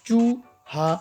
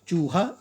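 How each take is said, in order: First: The two syllables are said apart with a break. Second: The two syllables are said together without a break. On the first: The speaker calls it wrong. "अलग अलग ना करके" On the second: The speaker calls it right. "इकट्ठे"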